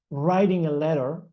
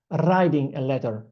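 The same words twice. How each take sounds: First: Said in the usual way. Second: "writing" in an Italian accent with a rolled R. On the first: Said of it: "instead of saying". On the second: Shown as a demonstration. Teacher showing how they once said it, Italian accent. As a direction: say "writing a letter" with Italian sounds. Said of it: "in my Italian accent, I said".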